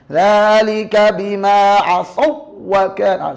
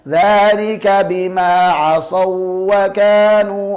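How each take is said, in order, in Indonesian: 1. Bunyi w ganda dihentak terlalu keras. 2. Bunyi w ganda diucapkan dengan lemah. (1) "dihentak berlebihan" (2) "Yang kedua dibaca lemah ya"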